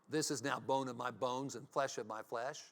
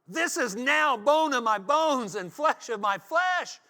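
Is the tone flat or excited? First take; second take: flat; excited. First: It is said in a flat, calm tone. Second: It is said in an excited tone.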